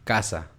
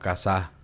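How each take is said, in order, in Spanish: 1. El acento está en la primera sílaba. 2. El acento está en la última sílaba. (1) "la sílaba tónica cae en la penúltima sílaba"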